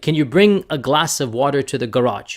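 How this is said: It is said in an American accent.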